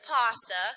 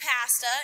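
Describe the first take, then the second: First: It is said with the local pronunciation. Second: It is said with a Canadian pronunciation. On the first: This is how the locals expected it. "instead of pasta" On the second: This is how the newcomer said it. "People giggled when I said pasta"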